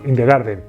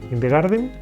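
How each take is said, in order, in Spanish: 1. La frase termina sonando acabada y segura. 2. La frase termina sonando inacabada y dudosa. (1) "entonación de he terminado"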